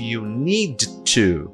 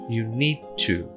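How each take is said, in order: First: Need and to are said as separate words. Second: Need and to run together into one sound. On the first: "ao invés de" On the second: "O T eu vou juntar com o último som que eu tiver"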